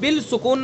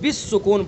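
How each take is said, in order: First: The first word ends with a clear L sound. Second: The first word ends with a doubled S sound. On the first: The speaker calls it wrong. "इसको हम बिल सुकून नहीं पढ़ेंगे" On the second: The speaker calls it right. "बिस सुकून पढ़ेंगे"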